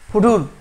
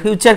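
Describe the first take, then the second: First: The middle consonant is a plain 't' sound. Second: The middle consonant is a 'ch' sound. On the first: The speaker calls it wrong. "কেন ফুটুর?" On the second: The speaker calls it right. "তার উচ্চারণ হবে চয়ের মতো।"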